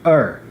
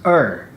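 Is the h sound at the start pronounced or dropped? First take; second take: dropped; dropped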